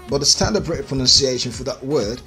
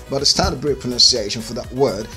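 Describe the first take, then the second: No difference in how they are said.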